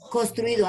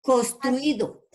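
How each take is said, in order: First: Said in the usual way. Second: Construido stretched out slowly, syllable by syllable; slow dictation. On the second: Shown as a demonstration. Teacher dictating Construido slowly to the online class. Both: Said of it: "Otra palabra".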